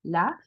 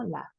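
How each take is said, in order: First: Said in the usual way. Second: Laughed with a crisp T at the end; hard final T. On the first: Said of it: "Aquí yo diría normal". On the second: Shown as a demonstration. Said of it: "un poco más duro el golpe". (laughed con una T final marcada)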